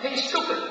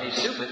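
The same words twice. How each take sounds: First: Loud, high-pitched call; yelled taunt. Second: Half-hearted call, only slightly raised; a toned-down taunt at normal pitch; mild mock yell. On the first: Acted. Someone yelling at a passer-by across campus, loud yell. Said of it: "somebody yells out". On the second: Somebody calling out to Terry Roberts, mild mock yell. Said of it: "Somebody yells out".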